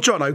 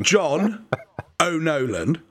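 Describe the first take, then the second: First: The name is run together into one word. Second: The name is said slowly as two separate parts. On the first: The speaker calls it wrong. "Not Jono" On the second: The speaker calls it right. "Two separate things"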